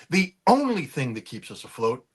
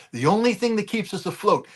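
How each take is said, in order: First: Said in the usual way. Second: "only" alzato e marcato; stress on only. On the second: Real, not acted. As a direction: batti la parola only.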